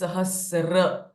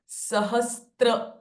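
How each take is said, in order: First: No t sound comes before the r. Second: A t sound comes before the r. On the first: The speaker calls it right. "but it is Sahasra" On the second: The speaker calls it wrong. "it is not Sahastra"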